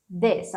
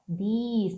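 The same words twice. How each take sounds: First: "this" with a short lax vowel, near "dess"; short, low-pitched "this" as a model; correct closed i. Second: "this" said as "dees", long ee; mispronounced "this" with an over-long ee; wrong vowel. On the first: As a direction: keep "this" short, vowel almost an e. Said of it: "A boca tá até mais fechada". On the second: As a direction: stretch the i of "this" into a long ee. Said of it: "Cuidado que não é this". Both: Shown as a demonstration.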